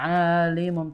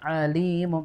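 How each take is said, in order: First: The vowel after the L is short. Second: The vowel after the L is long. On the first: It means simply knowing. The speaker calls it wrong. "bukan alimum" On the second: It means knowing without limit. The speaker calls it right. "yang baca di lamnya yang panjang ya"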